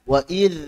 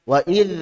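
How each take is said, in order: The two takes are said the same way.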